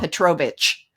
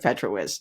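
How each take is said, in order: First: The name ends with a 'vich' sound. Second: The name ends with a 'witz' sound. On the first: The speaker calls it wrong. "they still want to say Petro uh, Petrovich" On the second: The speaker calls it right. "instead of Petrowitz"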